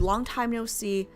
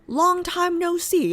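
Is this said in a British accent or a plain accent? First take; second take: plain; British. First: It is said in the speaker's plain accent. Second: It is said in a put-on British accent.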